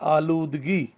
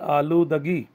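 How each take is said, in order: First: No vowel follows the d sound. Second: An 'a' vowel follows the d sound. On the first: "दाल पर जज्म" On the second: "दाल पर ज़बर के साथ"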